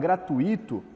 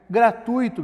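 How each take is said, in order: First: The 'u' and 'i' are split into two syllables. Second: The 'ui' is said together as one syllable. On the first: The speaker calls it wrong. "Apesar de muita gente falar gratuito" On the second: The speaker calls it right. "é uma palavra que ela tem um ditongo aí"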